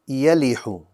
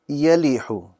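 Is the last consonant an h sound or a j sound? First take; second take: h; h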